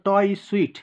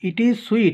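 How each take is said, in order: First: The first word is reduced to a 't' sound. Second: The first word is said in full as 'it'.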